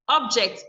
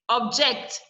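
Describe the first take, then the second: First: The stress is on the first syllable. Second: The stress is on the second syllable. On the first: The word is used as a noun. "The first syllable is stressed because it is a noun" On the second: The word is used as a verb. "if it is a verb, the second syllable will be stressed"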